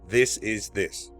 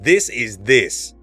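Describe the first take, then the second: First: It is said as a plain statement. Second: It is said as a firm command. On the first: It simply states a fact. "with a statement, it's like blank" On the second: It gives an order. "What about command?"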